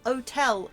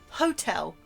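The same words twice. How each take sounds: First: The h at the start is silent. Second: The h at the start is pronounced. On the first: The speaker calls it right. "the word is hotel" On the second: The speaker calls it wrong. "and not hotel"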